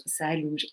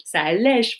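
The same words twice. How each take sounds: First: "ça allonge" mumbled as a quick slip, dropping quieter; the wrong word "allonge" trailing off before the fix; slip of the tongue. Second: "ça allège" said louder as the corrected word; self-correction. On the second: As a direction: firmly correct to "allège", pushing it out. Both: Real, not acted.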